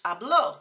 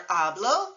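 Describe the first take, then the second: First: Habló with the last syllable stressed; final-syllable stress. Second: Hablo with the first syllable stressed. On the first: Teacher showing he spoke, final-syllable stress. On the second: Teacher contrasting I speak with he spoke, first-syllable stress. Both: Shown as a demonstration. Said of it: "accent mark makes a crucial difference".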